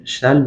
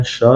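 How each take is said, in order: First: "shall" in an American accent, with a front vowel; American-style "shall", open front vowel; American pronunciation. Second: "shall" in a British accent, with a darker back vowel; British-accented "shall", vowel further back; British pronunciation. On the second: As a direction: say "shall" the British way, rounded toward "shol". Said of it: "لهجهٔ انگلیسی یا بریتیش". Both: Shown as a demonstration.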